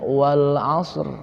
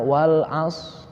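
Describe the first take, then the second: First: The final r sound is clearly pronounced. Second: The final r sound is left out. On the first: The speaker calls it right. "Mendingan gini aja" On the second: The speaker calls it wrong. "Membuang ro"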